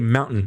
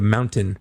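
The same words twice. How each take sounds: First: The middle T sound is dropped. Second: The middle T sound is clearly pronounced. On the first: "Californians don't pronounce their T's" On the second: "instead of"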